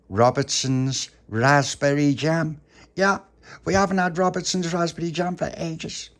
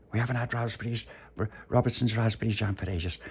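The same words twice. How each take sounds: First: High, loud, relishing each word; thrilled, pitched-up boast; excited reveal. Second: Said in the usual way. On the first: Acted. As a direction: announce the treat with delight. Tony reveals special jam.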